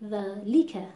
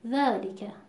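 First: The l syllable gets heavy, forceful stress. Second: The vowel after the l is cut very short. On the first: "داریم فشار زیادی و نبر زیاد میاریم رو حرف لام" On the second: "این اختلاس در لام دیده میشه"

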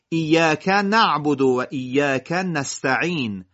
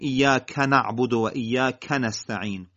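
First: Each word's first letter is clearly articulated. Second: Word endings are run into the following words. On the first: The speaker calls it right. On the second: The speaker calls it wrong.

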